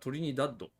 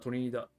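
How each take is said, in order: First: The word ends with a d sound. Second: The word ends without a d sound. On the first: This follows the spelling read as romanization. "スペルではトリニダッド、ローマ字読みしたらそうなる" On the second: This is how it is called locally. "あちらではトリニダと呼びます"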